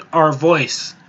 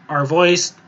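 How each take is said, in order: Both takes have the same delivery.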